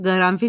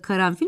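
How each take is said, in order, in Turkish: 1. Kelime g sesiyle başlar. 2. Kelime k sesiyle başlar. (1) "Garanfil olsa gerek değil mi? Hani KG'leşiyor dedik ya" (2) "orada karanfil mi"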